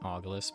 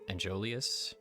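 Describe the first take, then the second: First: The name starts with an 'aw' sound. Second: The name starts with an 'an' sound. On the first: This is the speaker's own habitual way of saying it. "I always call it Saint uh, Saint Augulus, but I'm sure that's incorrect" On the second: This is how others say the name. "they say"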